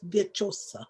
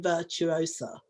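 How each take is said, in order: First: The u and o run together into one sound. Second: The u and o are said as separate sounds. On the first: This is the Italian pronunciation of the name. "they seem to miss. I think they allied is the proper word. The U and the O" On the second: This is the usual English reading of the name. "we look at it like virtual, don't we? Or virtue. So we say virtuosa"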